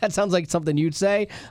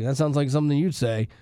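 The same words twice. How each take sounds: First: It is said in a warm, playful tone. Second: It is said in a scornful, mocking tone. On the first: The remark is meant as a compliment. "if I said something funny" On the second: The remark is meant as an insult. "if someone said something dumb"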